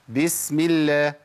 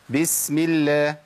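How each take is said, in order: The two takes are said the same way.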